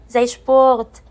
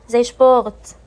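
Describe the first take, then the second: No difference in how they are said.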